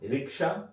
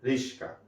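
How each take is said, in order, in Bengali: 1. মাঝের ব্যঞ্জনগুচ্ছটি হলো 'k' তারপর 's'। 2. মাঝের ব্যঞ্জনগুচ্ছটি হলো 's' তারপর 'k'। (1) "এটা আগে আসবে" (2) "এটা পরে যাবে"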